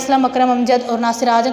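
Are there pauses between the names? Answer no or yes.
no. The names run together quickly without pauses. The names could be read as two people. The speaker calls it wrong.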